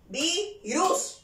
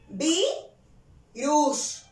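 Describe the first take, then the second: First: The stress is on the last syllable. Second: The stress is on the first syllable. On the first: The speaker calls it wrong. "Yo no digo virus" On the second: The speaker calls it right. "Yo digo, virus. ... vi es la penúltima sílaba. Esta es la sílaba tónica"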